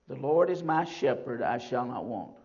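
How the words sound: The emphasis falls on "my shepherd". "I put the emphasis on my shepherd"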